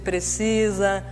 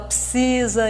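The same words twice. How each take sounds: First: The word is said with full, clear articulation. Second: The word is said with sloppy, reduced articulation. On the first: The speaker calls it right. "em vez de precisa" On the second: The speaker calls it wrong. "muita gente boa que fala precisa"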